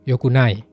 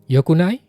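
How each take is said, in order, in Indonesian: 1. Nadanya turun di akhir. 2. Nadanya naik di akhir. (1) "Kalau yokunai nadanya turun, artinya tidak baik" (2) "yokunai ini nadanya naik ya"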